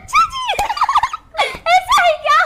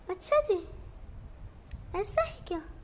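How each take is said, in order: First: It is said in an excited tone. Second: It is said in a sad tone.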